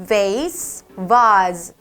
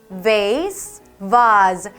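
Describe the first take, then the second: Both takes have the same delivery.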